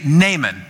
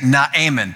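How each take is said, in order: First: The first vowel is short and plain. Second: The first vowel is drawn out and bleating. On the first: "So I'm going to say Naaman" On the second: "it sounds like a goat when you say Naaman"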